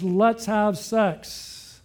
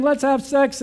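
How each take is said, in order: First: Drawn out, very slow, a mild seductive coax; slow seductive line. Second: Higher and louder, a hammed-up eager come-on; preacher mimics the woman, higher and louder; mock eager proposition. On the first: Retold or imitated. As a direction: linger on each word like a temptress, very slowly. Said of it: "She grabs him and says". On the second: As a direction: toss it out brightly like a pushy temptress. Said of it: "She's saying".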